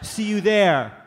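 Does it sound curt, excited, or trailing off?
trailing. It trails off without ending.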